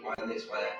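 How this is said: It is said in a bitter, resentful tone. The speaker envies others' success. The speaker calls it wrong. "a life of being a hater"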